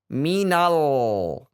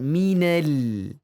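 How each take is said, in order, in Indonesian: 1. L dibaca tebal dan berat. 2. L dibaca tipis dan ringan. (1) "Ini juga termasuk ketebalan. Misalkan minal" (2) "Harusnya kan minal"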